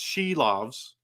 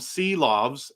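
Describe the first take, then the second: First: The name begins with an sh sound. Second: The name begins with a plain s sound. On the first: This is how the name is really said. The speaker calls it right. "it's She Loves" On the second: This is how many people say the name. The speaker calls it wrong. "call them Sea Loves"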